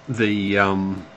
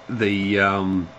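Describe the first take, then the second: Both takes have the same delivery.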